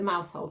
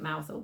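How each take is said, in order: First: The name is said as it is spelled. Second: The name is said the local Cornish way. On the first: This is the name as written on the book. "so it's the Mousehole Cat" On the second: This is how people in the town say it. "but we call it Mousehole because of the town"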